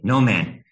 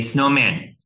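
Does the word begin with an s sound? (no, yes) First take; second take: no; yes. First: The word begins without an s sound. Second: The word begins with an s sound. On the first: The speaker calls it wrong. "leave off the S at the beginning of the word" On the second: The speaker calls it right. "say snowman"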